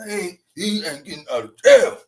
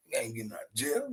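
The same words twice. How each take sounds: First: "He ain't getting out of jail" said louder with a rise on "jail"; emphatic repeat. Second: "He ain't getting out of jail" muttered much softer and fast; muttered aside. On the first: Host insisting to viewers, louder and emphatic. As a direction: press the point home louder. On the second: Host quietly mocking the jailed rapper, muttered. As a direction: toss it off under your breath. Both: Acted.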